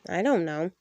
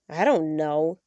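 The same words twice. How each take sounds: First: It is said in a neutral tone. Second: It is said in a very annoyed tone.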